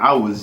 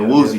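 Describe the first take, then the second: First: The name has a Nigerian pronunciation. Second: The name has an anglicized pronunciation. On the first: "That's like the Nigerian, like straight up Nigerian way of saying it" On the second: "that's what I was raised people calling me"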